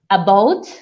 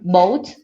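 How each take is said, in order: First: The word starts with its unstressed vowel. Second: The unstressed first vowel is left off. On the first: "instead of saying about" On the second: "you may hear boat"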